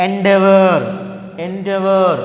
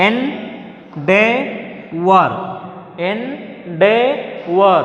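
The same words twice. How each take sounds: First: Said in the usual way. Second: "endeavor" in three very slow, separate syllables; teacher sounding out "endeavor" piece by piece. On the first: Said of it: "ఎన్ని syllables ఉన్నాయండి ఇందులో". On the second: Shown as a demonstration. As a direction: leave clear gaps inside "endeavor", one part at a time. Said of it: "There are three syllables".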